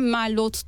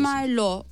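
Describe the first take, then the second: First: The final t is pronounced. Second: The final t is silent. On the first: The speaker calls it wrong. "Merlot diyen kişiler oluyor" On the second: The speaker calls it right. "Merlot varken"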